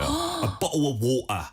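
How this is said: It is said in working-class British, t's swallowed. "그 티 그냥 다 삼켜버리는 거예요"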